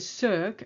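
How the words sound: It is said with an English vowel sound. The speaker calls it wrong. "in English you tend to say cirque"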